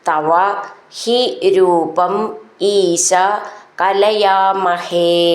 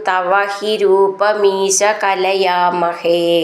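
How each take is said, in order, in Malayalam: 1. rupam ഉം isha ഉം വെവ്വേറെയാണ് പറയുന്നത്. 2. rupam ഉം isha ഉം ചേർന്ന് rupamisha എന്നാണ് പറയുന്നത്.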